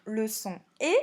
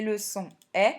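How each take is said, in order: First: E said as a closed "é", /e/; closed é sound. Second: E said as an open "è", /ɛ/; open è sound. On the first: Teacher showing learners what the letter produces, E as closed é. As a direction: say E as tight é, as with an acute accent. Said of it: "L'accent aigu fait le son E". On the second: Teacher showing learners what the letter produces, E as open è. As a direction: say E as open è, as with a grave accent. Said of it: "l'accent grave fait le son E". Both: Shown as a demonstration.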